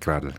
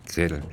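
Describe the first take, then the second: First: The first vowel is a plain 'a' sound. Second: The first vowel is an 'ä' sound. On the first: The speaker calls it wrong. "nicht Gradl" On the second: The speaker calls it right.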